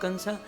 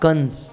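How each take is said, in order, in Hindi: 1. नाम के अंत में एक स्वर जुड़ा है। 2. नाम अंतिम व्यंजन पर खत्म होता है। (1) "ये इंग्लिश वाले कंसा बोलते हैं।" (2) "ये हमारी हिंदी गुजराती भाषा बहुत अच्छी है।"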